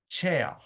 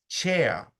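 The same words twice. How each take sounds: The two takes are said the same way.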